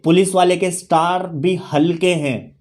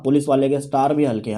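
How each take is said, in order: First: Measured, unhurried lyric quote; quoted song lyric. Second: Same line said fast in talking voice; brisk, conversational restatement; quick repeat. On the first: Retold or imitated. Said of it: "वो कहते हैं ना कि एक गाना था". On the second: Real, not acted. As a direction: run through the line quickly. Quick repeat after slow lyric quote.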